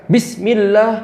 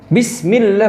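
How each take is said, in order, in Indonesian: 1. Bunyi s dipotong tiba-tiba. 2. Bunyi s dipotong tiba-tiba.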